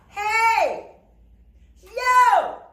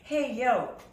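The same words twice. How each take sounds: First: It is yelled loudly with an open mouth. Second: It is said quietly, like conversation.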